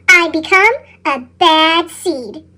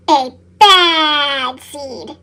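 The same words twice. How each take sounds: First: Said in the usual way. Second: Very slow, low and brooding; a lower, sorrowful repeat; slow dramatic echo. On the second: A narrator's reading. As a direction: drag it out with gloom.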